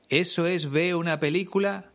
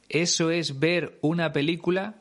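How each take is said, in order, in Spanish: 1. La r final de 'ver' se pierde. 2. La r final de 'ver' se pronuncia. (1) "se come la R en el infinitivo de un verbo" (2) "en vez de"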